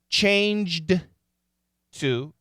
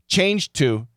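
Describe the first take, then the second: First: The D is pronounced separately before the T. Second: The D blends smoothly into the T. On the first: "perfect pronunciation" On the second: "it blends into the T, and we hear a lot more T"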